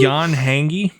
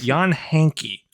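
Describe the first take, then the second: First: The surname's second syllable starts with a G sound. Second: The surname's second syllable starts with a K sound. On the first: The speaker calls it wrong. "We've been pronouncing it uh, Jan Hangi for the longest time" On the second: The speaker calls it right. "The correct pronunciation, according to him, is uh, Jan Hanky"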